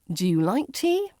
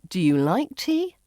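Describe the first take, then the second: First: The voice rises at the end. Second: The voice rises at the end.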